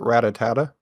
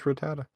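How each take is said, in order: First: The name has an extra syllable, four in all. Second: The name has three syllables, no extra one. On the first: The speaker calls it wrong. "used to pronounce, uh, Rattata wrong" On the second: The speaker calls it right. "it's just Rattata"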